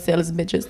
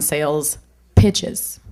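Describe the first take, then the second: First: The second word begins with a B sound. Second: The second word begins with a P sound.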